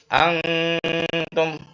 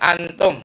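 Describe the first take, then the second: First: The nasal hum before the t is held long. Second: The nasal before the t is cut short. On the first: The speaker calls it right. "Dan agak lama ya ditahan dengung ya" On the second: The speaker calls it wrong. "Jangan antum, antum enggak boleh"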